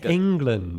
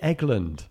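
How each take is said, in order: First: The name is said with an n before g. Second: The name is said without an n before g. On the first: The speaker calls it right. "It's England" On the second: The speaker calls it wrong. "Why do you always say Eglund?"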